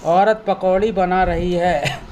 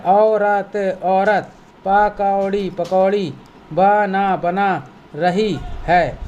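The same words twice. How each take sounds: First: Said in the usual way. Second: Slow word-by-word reading. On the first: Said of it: "whole sentence reading". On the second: Shown as a demonstration. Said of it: "teacher syllable reading".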